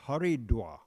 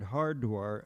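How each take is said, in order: First: The name is said with three syllables. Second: The name is said with two syllables. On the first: This is how people there say the name. "they pronounce it there Haridwar" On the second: This is the westernized form of the name. "is a, a westernization of the word"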